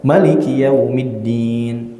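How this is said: It is read with Moroccan vowel lengths. "bacaan orang-orang Maroko beda"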